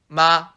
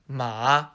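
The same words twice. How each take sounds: First: The pitch stays level and flat. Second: The pitch dips down then rises. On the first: "The first tone goes directly horizontally" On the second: "the third tone goes down and then back up"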